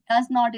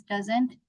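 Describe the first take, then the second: First: Said in the usual way. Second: "doesn't" with the "not" reduced to n't; contracted form. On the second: Shown as a demonstration. Teacher showing the negative contraction, contracted "doesn't". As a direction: say "doesn't" as one word. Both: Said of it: "does not is doesn't".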